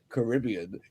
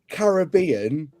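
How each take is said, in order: First: It is said the way an American says it. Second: It is said in the speaker's own non-American accent. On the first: "an American going Caribbean" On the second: "we say Caribbean"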